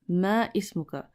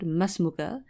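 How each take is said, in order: First: The two words are said separately. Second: The two words run together as one. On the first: The speaker calls it wrong. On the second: The speaker calls it right.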